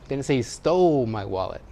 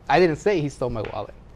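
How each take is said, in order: First: The word "stole" carries the stress. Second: The word "I" carries the stress. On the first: It was borrowed, not taken. "He borrowed it" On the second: Someone else said it. "Wasn't me"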